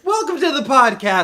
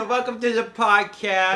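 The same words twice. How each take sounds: First: High, loud formal welcome; official announcer voice. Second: High, loud goofy Sandler voice; Adam Sandler impression. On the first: Pretend. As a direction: announce it like a show host. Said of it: "the more official sounding one". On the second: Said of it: "Adam Sandler impressions now?".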